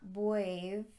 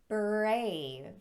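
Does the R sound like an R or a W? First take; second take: W; R. First: The R is said like a W. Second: The R is said as a clear R. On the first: The speaker calls it wrong. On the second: The speaker calls it right.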